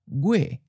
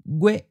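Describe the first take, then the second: First: The pitch starts high and falls. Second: The pitch is high and cut off abruptly. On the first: This is how it sounds in a general southern accent. "in a general southern accent, it may sound almost like a high falling" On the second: This is the standard form used in the lesson. "we'll just stick with the high stop"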